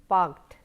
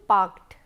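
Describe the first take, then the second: No difference in how they are said.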